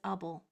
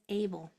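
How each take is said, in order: First: The first vowel is a reduced 'uh' sound. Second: The first vowel is a full 'ay' sound. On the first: It is a suffix attached to a word. "when it's at the end of a word, it says able. It changes" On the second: It is the word standing alone. "A B L E, when it's all by itself, says able"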